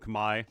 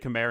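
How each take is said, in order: First: Pronounced the native way, unlike the English spelling. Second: Pronounced the way the English spelling suggests. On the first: The speaker calls it right. "instead of Khmer" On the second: The speaker calls it wrong. "I say Khmer"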